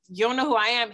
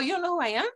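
First: The voice sounds arrogant and self-important. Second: The voice sounds surprised and friendly. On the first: The speaker is showing off that he is famous. "he didn't say it like" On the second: The speaker is honestly surprised at not being recognized. "He said it like a genuine"

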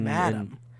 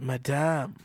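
First: It is said with an American accent. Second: It is said with a French accent. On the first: "us basic Americans would say madam" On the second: "sounds so much better"

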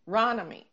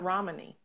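First: The syllable is said with a clear 'ron' sound. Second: The syllable is said with an 'm'-like 'rom' sound. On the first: The speaker calls it right. "It's Ron" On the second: The speaker calls it wrong. "Not Romany"

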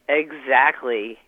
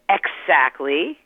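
First: The first syllable sounds like eggs. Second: The first syllable sounds like ecks. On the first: The speaker calls it right. "which is eggs, E-G-G-S. So you say exactly" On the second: The speaker calls it wrong. "You don't say exactly"

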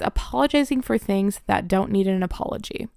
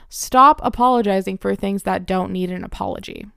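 First: It is said at normal volume. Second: It is said louder than before.

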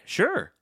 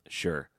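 First: It sounds willing and glad. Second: It sounds reluctant and grudging.

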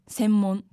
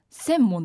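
First: It has the standard Tokyo pitch accent. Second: It has the Yamaguchi dialect pitch accent. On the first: "標準語だと専門" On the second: "私たちは専門って言うよ"

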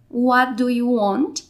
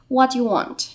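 First: Each word is said carefully and separately. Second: The words blend together quickly.

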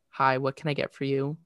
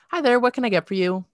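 First: It is said in a plain, everyday voice. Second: It is said in a put-on, overly friendly voice. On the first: "So this is my regular voice" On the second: "And this is my customer service voice"

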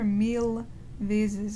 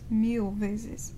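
First: The L in mil is clearly pronounced. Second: The L in mil almost disappears. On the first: The speaker calls it wrong. "you don't hear mil vezes" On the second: The speaker calls it right. "it's mil vezes"

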